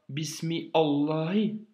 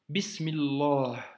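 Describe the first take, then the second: First: The words are said separately, without linking. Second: The words are run together into one linked form. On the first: The speaker calls it wrong. "tu ne dis pas Bismi Allahi" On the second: The speaker calls it right. "tu dis Bismillah"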